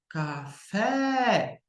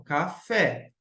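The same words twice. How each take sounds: First: "Café" called out higher, with a long drawn-out "fé"; called out to find stress. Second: "Café" split as "ca" and "fé", at normal volume; syllables separated. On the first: Teacher demonstrating the stress trick, "Café" cried out with long final syllable. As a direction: stretch the "fé" of "Café" like a calling cry. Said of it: "Faz o grito que eu falei". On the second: Teacher showing how to separate syllables, "Café" said in two parts. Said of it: "Ca-, faz separação". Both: Shown as a demonstration.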